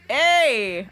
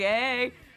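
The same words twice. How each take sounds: First: The word is said slowly and drawn out. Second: The word is said short and quick. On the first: The speaker calls it wrong. "I shouldn't say hey" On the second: The speaker calls it right. "It's got to be a quick thing"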